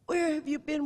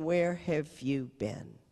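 First: Higher, eager Cajun father; high, pleading question; grieving father to the nun, pitched up; imitating Lloyd. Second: Slow, level question; nun recalling his words, slow; plain slow retelling. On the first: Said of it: "And he said". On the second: Retold or imitated. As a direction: let it hang, slowly. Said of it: "he's looking at me and saying".

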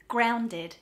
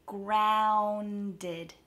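First: Said in the usual way. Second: "Grounded" drawn out sound by sound; slowed down. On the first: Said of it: "If this is too fast for you". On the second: Shown as a demonstration. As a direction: stretch the first vowel of "Grounded" slowly. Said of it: "practice slowing it down and hitting each".

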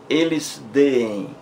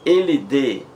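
First: Deem said slowly as two Es, de-em; slow teacher's demo of the hiatus in deem; drawn-out hiatus. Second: Said in the usual way. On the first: Shown as a demonstration. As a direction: stretch deem into two separate vowels.

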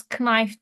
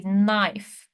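First: Knife with the K sounded, k-naif; wrong pronunciation. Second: Knife with a silent K, just naif; correct pronunciation. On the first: Teacher showing students the wrong way: Knife with a spoken K. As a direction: say Knife with a hard K in front, the wrong way. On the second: Teacher showing students the right way: knife with the K silent. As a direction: say knife starting straight on the N. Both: Shown as a demonstration. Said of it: "K'yi söylemiyoruz".

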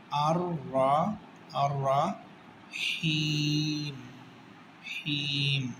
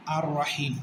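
First: আর রাহিম, very slow and drawn out, with a heavy রা; slow Quranic recitation. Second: Said in the usual way. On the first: Shown as a demonstration. Teacher recites আর রাহিম slowly for students. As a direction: stretch আর রাহিম out as in chant. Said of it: "রাটা হচ্ছে মোটা". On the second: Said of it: "এখানে তাজবিদের কি নিয়ম?".

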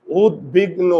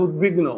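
First: উদ্বিগ্ন broken as "ud-big-no"; উদ্বিগ্ন carefully split, ending "no"; syllable demonstration. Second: Said in the usual way. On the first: Shown as a demonstration. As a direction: sound out উদ্বিগ্ন in three pieces, closed o last. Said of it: "ওকার হলো কেন". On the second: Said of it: "এটার উচ্চারণটা কি হবে".

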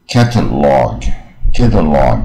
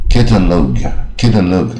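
First: "catalog" very slowly with open, drawn-out "log"; slow, careful "catalog", open last vowel; curled-tongue model. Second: "catalog" with "log" said as "lohg"; uncurled final syllable. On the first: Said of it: "你就算前面念对". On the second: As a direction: say "catalog" with a wrong long O at the end. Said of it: "念到不卷舌也不对". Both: Shown as a demonstration.

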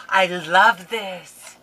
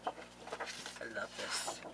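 First: Slow, loud cry of love; delighted exclaim. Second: Slow breathy whisper of delight; awed whisper. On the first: Unboxing crafter gushes loudly over the paper. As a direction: belt it out with delight. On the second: Unboxing crafter whispers over paper in awe. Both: Real, not acted.

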